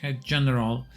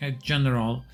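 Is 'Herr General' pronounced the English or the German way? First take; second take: English; English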